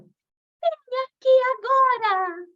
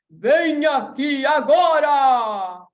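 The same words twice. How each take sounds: First: It is said in a high, delicate fairy voice. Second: It is said in a deep, authoritative king's voice.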